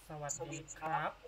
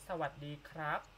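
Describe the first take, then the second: No difference in how they are said.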